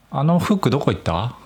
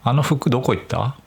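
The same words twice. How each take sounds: First: 「あの服どこ行った？」 with Nagoya accent on 服; casual Nagoya-dialect question; 名古屋弁で「あの服どこ行った？」. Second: 「あの服どこ行った？」 with Tokyo accent on 服; same question the Tokyo way; 東京アクセントで「あの服どこ行った？」. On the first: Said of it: "これ名古屋弁". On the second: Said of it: "東京だと". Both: Shown as a demonstration.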